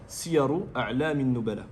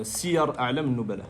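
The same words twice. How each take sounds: First: Siyaru said with the full case ending u, slowly; corrected title. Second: Siyar said without the final vowel, slowly; first reading of title. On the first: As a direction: add the u to Siyaru. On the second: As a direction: read Siyar clipped off at the r. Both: Shown as a demonstration.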